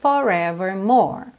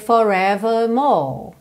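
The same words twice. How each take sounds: First: The R sounds are clearly pronounced. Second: The R sounds are dropped.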